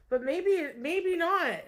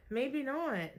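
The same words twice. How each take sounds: First: Mock sing-song maybe, higher and louder; playful high. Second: Said in the usual way. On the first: Teasing the listener in a high playful lilt.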